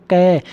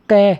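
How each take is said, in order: First: कै drawn out long until the vowel ए rings at the end; stretched syllable. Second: Said in the usual way. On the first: Shown as a demonstration. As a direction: stretch कै slowly so the ए sound comes out. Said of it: "लंबा खींचना चाहो". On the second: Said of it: "कै बोलो".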